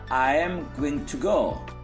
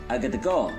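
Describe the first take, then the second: First: Every word is said fully and separately. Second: The words are reduced and run together quickly. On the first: "Seperti halnya I am going to go" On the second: "but native say I gotta go"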